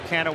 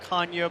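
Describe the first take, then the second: First: The name is said with American pronunciation. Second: The name is said with Portuguese pronunciation. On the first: This is the form the family uses in America. "So it's now Mark Canha" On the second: This is the family's original heritage form. "the Portuguese heritage, and it's really Canha"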